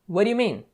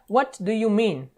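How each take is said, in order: First: The words run together quickly and are reduced. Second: Each word is pronounced fully and separately. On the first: The speaker calls it right. "Na fala rápida vai ficar" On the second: The speaker calls it wrong. "Então não é"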